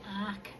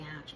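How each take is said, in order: First: The word ends with a hard k sound. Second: The word ends with a ch sound. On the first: "You can pronounce it arc" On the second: "but I pronounce it the arch method"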